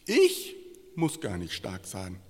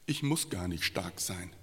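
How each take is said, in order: First: "Ich" hoch und laut betont, der Rest ruhig; stress on ICH. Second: Said in the usual way. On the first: Shown as a demonstration. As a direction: das Wort "Ich" kräftig herausheben. (Betonung auf "Ich", hoch und laut) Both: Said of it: "Mit Betonung auf ich".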